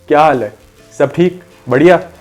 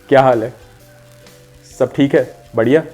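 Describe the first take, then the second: First: It is said moderately loud, as to someone farther. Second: It is said softly, as to someone close.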